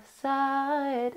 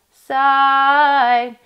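First: "side" sung soft and flat. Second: "side" pushed loud throughout. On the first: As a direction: sing "side" quietly, no swell. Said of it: "It's not side". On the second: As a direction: belt "side" at full volume. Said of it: "and it's not side". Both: Shown as a demonstration.

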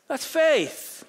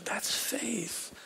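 First: That's faith, cried out much higher and louder with the stress on faith; preacher's ringing exclamation; loud declaration. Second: That's faith, whispered softly with the stress on faith; hushed preacher's whisper. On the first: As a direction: proclaim faith at the top of your voice. Preacher's climax punch line. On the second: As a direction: lean in and breathe it to the congregation. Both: Real, not acted.

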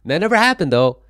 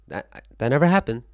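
First: Shouted, much higher and louder; a big loud protest that it never happened; loud denial. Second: Louder and higher, insisting; stressing never, still loud but calmer; firm denial. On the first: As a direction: yell it out, insisting. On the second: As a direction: say it again, firmly. Repeats the denial. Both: Real, not acted.

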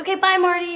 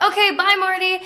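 First: Much higher chirpy goodbye, in British voice; repeated British goodbye. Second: Much higher, chirpy fake British farewell; sweet British goodbye. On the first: Retold or imitated. Saying goodbye to Marty, high chirpy British. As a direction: chirp the farewell again, very high. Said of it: "And I was like". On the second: Leaving Scorsese's office, chirpy British goodbye. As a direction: leave sweetly in put-on British. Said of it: "I was like".

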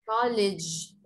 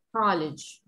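First: College ending in a strong dj sound; model pronunciation. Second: College ending in a dj sound; model pronunciation. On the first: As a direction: end College with a hard Y like dj. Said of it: "Pongo la Y porque es el único sonido más parecido". (College con una Y muy fuerte) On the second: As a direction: end College with a clear dj. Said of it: "no le hace mucha justicia a la Y". (College con la Y fuerte) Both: Shown as a demonstration.

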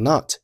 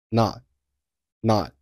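First: Said in the usual way. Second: "not" with the t held, unreleased; swallowed final t. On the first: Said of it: "后面not结尾的t". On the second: Shown as a demonstration. Teacher showing learners "not" with a swallowed t. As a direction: stop the tongue on the t of "not" without releasing it. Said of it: "但是把声音给吞掉".

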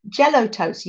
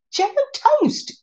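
First: Said in the usual way. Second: High, slow, amazed delight. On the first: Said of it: "Have you heard of Jell-O toast?". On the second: Real, not acted. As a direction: savor the words in wonder. Marvelling at Jell-O toast.

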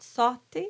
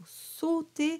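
First: "sauter" with an open O; 开口O错误示范. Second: "sauter" with a closed O; 闭口O示范. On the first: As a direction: demonstrate "sauter" mispronounced with an open O in the first syllable. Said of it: "That would be an open O". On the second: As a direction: say "sauter" with a tight, closed O in the first syllable. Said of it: "It is a closed O". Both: Shown as a demonstration.

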